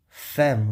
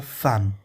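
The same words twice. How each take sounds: First: "femme" as "fém"; wrong pronunciation. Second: "femme" as "fam"; "femme" pronounced with "a", despite the written e; correct French pronunciation. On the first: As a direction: say "femme" with an open "é" vowel. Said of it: "ao invés de você pronunciar". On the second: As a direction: say "femme" with an "a" vowel. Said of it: "você vai pronunciar". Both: Shown as a demonstration.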